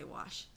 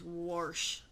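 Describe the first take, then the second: First: It is said in the speaker's own accent. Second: It is said in a Missouri accent. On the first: This is how the speaker says it. "but I say wash" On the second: Someone else says it this way. "My boss is from Missouri and she says wash"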